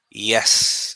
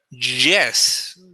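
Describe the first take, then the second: First: It starts with a soft Y glide sound. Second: It starts with a harder J-like sound. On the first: The speaker calls it right. "Like when you say yes" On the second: The speaker calls it wrong. "you don't say yes"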